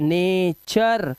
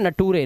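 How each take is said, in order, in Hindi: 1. बीच का व्यंजन 'ch' की ध्वनि है। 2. बीच का व्यंजन सादा 't' की ध्वनि है। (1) "अर की आवाज है" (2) "अब इसे नटूरे नहीं पढ़ना है आपको"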